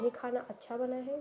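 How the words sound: It is said in a flat, neutral tone. The remark carries no particular feeling. "ये एक neutral हो गया।"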